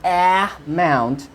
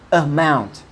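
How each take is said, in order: First: The first vowel is a full vowel sound. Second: The first vowel is a weak schwa sound. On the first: The speaker calls it wrong. "both of these options are wrong because A is unstressed" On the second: The speaker calls it right. "What is stressed is the rest of a word"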